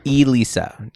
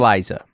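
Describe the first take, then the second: First: The name ends like Lisa, with an s sound. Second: The name ends like Liza, with a z sound. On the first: The speaker calls it right. "Elisa, not" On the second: The speaker calls it wrong. "not Eliza"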